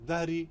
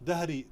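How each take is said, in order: Both takes have the same delivery.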